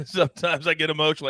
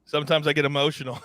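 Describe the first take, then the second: First: Laughing through a mock-emotional confession. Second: Said in the usual way. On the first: Real, not acted. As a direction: chuckle it out, half joking.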